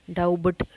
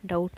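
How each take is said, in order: First: "डाउट" with the silent b pronounced, dow-but; B sounded. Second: Said in the usual way. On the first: Shown as a demonstration. Teacher showing learners the wrong doubt, b sounded in "डाउट". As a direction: say "डाउट" wrongly as dau-bat, b voiced. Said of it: "नहीं बोल रहे हैं". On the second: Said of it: "B silent रहेगा यहाँ पे".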